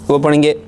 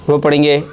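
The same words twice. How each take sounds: No difference in how they are said.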